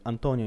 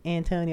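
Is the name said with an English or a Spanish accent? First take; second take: Spanish; English. First: The name is said with a Spanish accent. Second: The name is said with an English accent. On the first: It sounds cool. The speaker calls it right. "with the accent" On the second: It does not sound cool. The speaker calls it wrong. "it just sounds very like Antonio"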